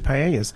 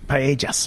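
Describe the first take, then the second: First: The word is pronounced in an anglicized way. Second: The word is pronounced in the Spanish way. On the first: The speaker calls it wrong. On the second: The speaker calls it right.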